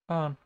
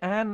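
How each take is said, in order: First: The vowel is long, with an r-like sound. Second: The vowel is short, as in 'can'. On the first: The speaker calls it wrong. "I've been pronouncing it Arn the entire time" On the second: The speaker calls it right. "I'm pretty sure it would be Anne"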